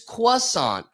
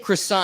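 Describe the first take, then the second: First: It is said with a French pronunciation. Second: It is said with an American pronunciation. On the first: "they go, no, no, no, it's croissant" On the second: "When I say croissant"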